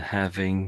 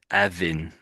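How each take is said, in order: First: The word starts with a clear h sound. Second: The word starts with a vowel, no h. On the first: The speaker calls it right. "rather than having" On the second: The speaker calls it wrong. "the H at the beginning has sort of died a bit. So I think you said it's like Avin"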